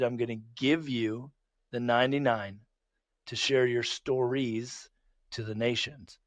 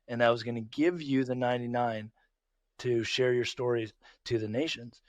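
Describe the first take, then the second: First: It is said slowly and deliberately. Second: It is said at normal speed.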